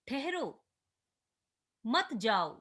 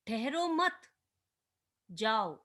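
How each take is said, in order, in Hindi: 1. ठहरो शब्द के बाद विराम आता है। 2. मत शब्द के बाद विराम आता है। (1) "ठहरने को कहा गया है और जाने से रोका गया है" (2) "ठहरने से रोका गया है और जाने को कहा गया है"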